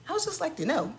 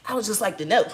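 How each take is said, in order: First: Higher, sing-song fake politeness; a higher mock-polite retake; mock sweet asking. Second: Said in the usual way. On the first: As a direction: ask it sweetly, all fake innocence.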